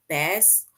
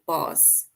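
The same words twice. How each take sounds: First: "bass" with a short a as in cat; first pronunciation of bass. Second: "bass" with a broad ah vowel; long open ah in "bass"; second pronunciation of bass. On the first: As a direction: say "bass" to rhyme with mass. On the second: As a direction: say "bass" as bahs. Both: Shown as a demonstration. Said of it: "if I should say it's the bass or bass".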